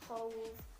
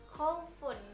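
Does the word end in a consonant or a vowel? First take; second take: consonant; vowel. First: The word stops right after the f sound. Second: The word ends with a full final syllable.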